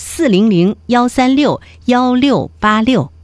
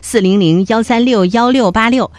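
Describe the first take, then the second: First: The number is said more slowly. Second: The number is said at a normal pace.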